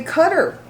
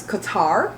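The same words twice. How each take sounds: First: "Cutter" stressed first, CUT-er; "Cutter" with weak final syllable; news pronunciation of Qatar. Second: "Qatar" said kuh-TAR; slow "Qatar" leaning on the last syllable; stress on TAR. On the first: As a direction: say "Cutter" like the word for one who cuts. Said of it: "like C U T T E R". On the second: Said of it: "stress that tar". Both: Shown as a demonstration.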